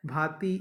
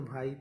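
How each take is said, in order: First: Said in the usual way. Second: "भाई" said as bhaa-it, i before t; i moved forward. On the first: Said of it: "ई है तो". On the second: Shown as a demonstration. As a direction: pull the i ahead of the t in "भाई". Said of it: "उससे पहले लग जाएगा". ("भाई" को "भाइत" जैसा बोलें)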